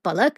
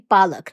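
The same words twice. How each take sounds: First: The first vowel is short. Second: The first vowel is long. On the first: It means eyelashes. The speaker calls it wrong. "not palak" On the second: It means spinach. The speaker calls it right. "Spinach is basically palak"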